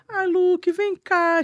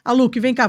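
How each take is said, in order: First: The voice sounds soft, warm and joyful. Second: The voice sounds tense, harsh and annoyed. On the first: The caller is happy and loving. "Ele sente a suavidade na sua voz, sente a alegria, sente o amor na sua voz" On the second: The caller is angry and stressed. "o tom da sua voz é um tom de irritação"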